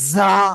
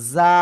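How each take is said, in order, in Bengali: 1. এই ব্যঞ্জনটি কড়া ও জোর করে বলা হয়। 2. এই ব্যঞ্জনটি নরম ও হালকাভাবে বলা হয়। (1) "যদি কেউ এরকম উচ্চারণ করেন, ... উচ্চারণ কিন্তু সঠিক হবে না" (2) "যাটা হলো নরম"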